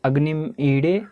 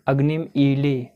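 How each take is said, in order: First: The middle consonant is a flapped D sound. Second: The middle consonant is an L sound. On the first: "कुछ लोग ड़ भी पढ़ते हैं" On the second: "इसको कुछ लोग ल भी पढ़ते हैं"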